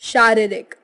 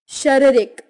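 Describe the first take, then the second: First: It is said with standard Hindi pronunciation. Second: It is said with a Punjabi regional accent. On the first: "Hindi उच्चारण" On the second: "Punjabi उच्चारण"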